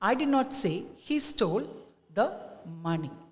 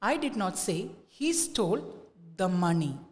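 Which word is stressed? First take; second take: money; money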